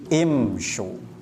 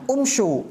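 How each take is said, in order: First: The word begins with an i vowel. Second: The word begins with a u vowel. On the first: The speaker calls it right. "tetapi imsyu" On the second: The speaker calls it wrong. "bukan umsyu"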